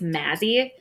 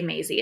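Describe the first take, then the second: First: The first vowel sounds like the one in 'mat'. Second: The first vowel sounds like the one in 'may'. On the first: The speaker calls it right. "It's Mazzy. I never say it right" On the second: The speaker calls it wrong. "I always say Maisie"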